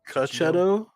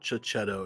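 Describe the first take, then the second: First: The name begins with a 'k' sound. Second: The name begins with a 'ch' sound. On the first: The speaker calls it right. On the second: The speaker calls it wrong. "it's not Chichetto"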